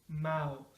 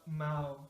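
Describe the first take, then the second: No difference in how they are said.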